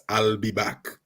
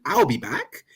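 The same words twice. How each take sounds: First: A mild imitation of Arnold's famous line; Schwarzenegger's own way. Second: "I'll be back." in a lightly mock posh British accent, slightly higher; a hint of a plummy British accent. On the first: An actor quoting his famous film line, lightly Arnold-style. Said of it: "the reason why that was famous". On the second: Mocking how it would sound in a posh British accent. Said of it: "in a really posh British accent".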